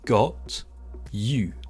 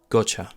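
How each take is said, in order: First: The t and y stay separate with a full vowel. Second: The t and y merge into ch with a schwa.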